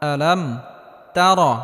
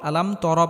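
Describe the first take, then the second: First: The second word is said as 'tar'. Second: The second word is said as 'tor'. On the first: The speaker calls it right. "আলাম আ আলাম তার" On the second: The speaker calls it wrong. "তর বললে নামাজ হবে না।"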